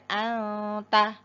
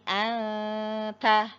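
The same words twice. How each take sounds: First: The nasal sound is cut short. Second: The nasal sound is held for two beats. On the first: The speaker calls it wrong. "tidak segera anta" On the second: The speaker calls it right. "Ditahan, disempurnakan gunahnya sekitar satu alif atau dua harokat"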